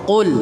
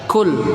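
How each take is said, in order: First: The first consonant is a deep back q sound. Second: The first consonant is a forward k sound. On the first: The speaker calls it right. "Tapi baca dengan huruf qaf" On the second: The speaker calls it wrong. "Jangan dibaca seperti kaf"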